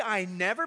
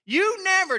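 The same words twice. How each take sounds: First: Said in the usual way. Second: High, loud mock "You never"; mock accusation. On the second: Pastor imitates a spouse's blame, mock accusing. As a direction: snap out a blaming "You never". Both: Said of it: "Don't say".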